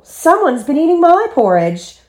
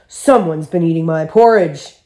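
First: It is exclaimed in a soft, low voice. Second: It is growled in a deep, gruff voice.

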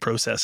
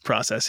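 First: It is said the Canadian way. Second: It is said the American way.

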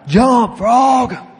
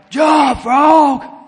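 First: It is shouted loudly. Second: It is shouted very loudly.

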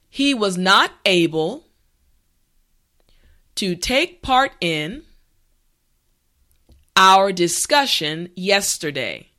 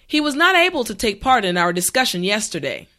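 First: The sentence is spoken slowly and carefully. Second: The sentence is spoken at a natural speed. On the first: "this time repeat after me" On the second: "the last time at a regular pace"

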